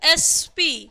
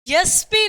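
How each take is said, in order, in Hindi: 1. पहला अक्षर सादे स्वर से शुरू होता है। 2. पहला अक्षर 'y' ध्वनि से शुरू होता है।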